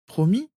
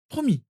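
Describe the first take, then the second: First: Put-on high, rising child's question; child seeking promise. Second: Put-on very high girl's answer, falling; reassuring promise. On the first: Sirius wanting cousin's word, hopeful. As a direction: ask PROMIS high, lifting at the end. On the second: Narcissa giving cousin her word, reassuring. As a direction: confirm PROMIS high, dropping at the end.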